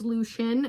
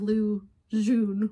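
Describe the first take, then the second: First: The second word starts with an sh sound. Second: The second word starts with a j sound. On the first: The speaker calls it right. "the X U N or X no X sound is sh" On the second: The speaker calls it wrong. "which is what I was saying because I didn't know what I was doing"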